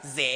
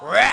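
First: It is said in a Sichuan accent. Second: It is said in a Hunan accent.

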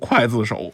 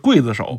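First: The first syllable is pronounced kuai. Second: The first syllable is pronounced gui. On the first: This is the reading used in Taiwan. "要说台湾的这个刽子手啊，确实读刽子手" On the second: This is the reading taught on the mainland. "咱们从小学的时候，这是刽子手"

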